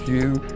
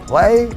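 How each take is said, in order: First: The name is said in an anglicized way. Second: The name is said in a local way. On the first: This is the speaker's own habitual version. The speaker calls it wrong. "I've said that wrong. I call it Hue" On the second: This is what the place is actually called. The speaker calls it right. "it's called Hue"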